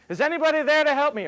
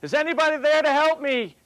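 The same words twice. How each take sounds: First: High, loud and hurried cry; faster yelling for help. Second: High, loud call into empty air; yelling for help. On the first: The man in the joke hanging from a stick yells for rescue again, faster. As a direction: yell it again faster, more desperate. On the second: The man in the joke hanging from a stick yells for rescue. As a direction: shout up for help, voice pitched high. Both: Retold or imitated. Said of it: "he's yelling out".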